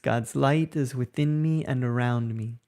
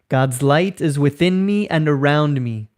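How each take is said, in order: First: It is spoken at an ordinary conversational level. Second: It is spoken loudly with high energy. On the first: "repeating again in a normal speaking voice" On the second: "repeating after me in a loud, energetic voice"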